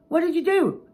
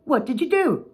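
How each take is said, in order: First: Much higher, loud mocking echo; snapped. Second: High, louder accusing phrase; the boss's usual blaming question; boss's stock phrase. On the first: Speaker snapping back at the boss, loud mocking echo. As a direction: throw his words back in a snap. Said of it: "And I snapped". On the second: Retold or imitated. Boss's habitual blame, high and accusing. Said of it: "very common words, the phrase".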